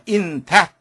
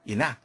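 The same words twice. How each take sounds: First: The th sound is strong and clearly pronounced. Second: The th sound is weak and blended in. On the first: "이렇게 강하게 발음되기보다는" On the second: "이렇게 들리는 경우가 아주 많습니다"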